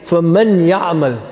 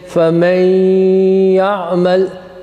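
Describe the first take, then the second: First: The n is pronounced separately before the y. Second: The n merges nasally into the y. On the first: This suits ordinary text reading, not recitation. The speaker calls it wrong. "So you don't say" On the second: This follows the recitation rule. The speaker calls it right. "you must assimilate them, now make idgham. And you would say"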